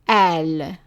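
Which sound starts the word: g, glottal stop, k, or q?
glottal stop. The word starts with a glottal stop. This is the form used in Lebanon and Egyptian cities. "it's pronounced as an a"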